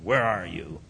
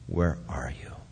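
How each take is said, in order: First: It is said in a harsh, angry tone. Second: It is said in a sobbing, heartbroken tone.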